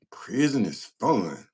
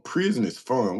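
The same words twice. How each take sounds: First: "Prison is fun" drawn out slowly; slow, stretched "Prison is fun"; incredulous repeat. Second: Said in the usual way. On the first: Retold or imitated. Repeats comment in disbelief, drawn out.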